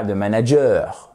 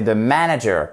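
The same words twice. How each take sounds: First: Insistent French accent on manager. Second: Manager with stress on the first syllable; English manager, MAN stressed, light ending; correct English stress. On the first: Teacher mimics learners' mistake, French accent on manager. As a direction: manager the French way, ending on a long -eur. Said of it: "j'insiste sur l'accent français". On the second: Teacher models the right way, English stress on manager. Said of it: "pas the manager". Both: Shown as a demonstration.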